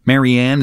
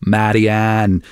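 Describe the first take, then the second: First: Said in the usual way. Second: Marianne in a light Dublin accent. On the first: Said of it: "although I suppose in the". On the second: Shown as a demonstration. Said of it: "in the Dublin accent it's".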